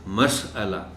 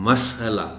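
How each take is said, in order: Both takes have the same delivery.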